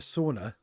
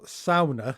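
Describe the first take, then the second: First: The word is said the common English way. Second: The word is said the original, native way.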